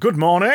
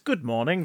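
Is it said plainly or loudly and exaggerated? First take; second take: exaggerated; plainly. First: It is said loudly and exaggerated. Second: It is said plainly and quietly.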